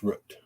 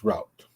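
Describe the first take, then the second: First: "route" rhymes with boot, ROOT; northern route. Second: "route" rhymes with out, ROWT; southern route. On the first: Vlogger giving the northern route, ROOT. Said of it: "In the North". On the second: Vlogger giving the southern route, ROWT. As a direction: say ROWT like shout. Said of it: "Down in the South". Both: Shown as a demonstration.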